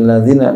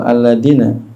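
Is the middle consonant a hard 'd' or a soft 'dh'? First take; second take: dh; d. First: The middle consonant is a soft 'th' sound. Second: The middle consonant is a hard 'd' sound. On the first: The speaker calls it right. "zal yang bertitik" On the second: The speaker calls it wrong. "dengan dal yang tidak bertitik badal zal ... Orang Sunda kan begitu"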